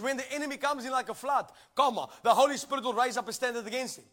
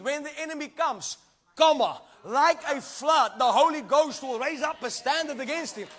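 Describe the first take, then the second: First: The break comes after the word flood. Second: The break comes after the word comes.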